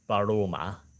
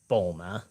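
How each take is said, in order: First: The name is said with three syllables. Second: The name is said with two syllables. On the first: It is the original Japanese form of the name. "a more comprehensible version for English of Baruma" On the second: It is an easier English version of the name. "how they pronounce it in the dub, it's like Bulma"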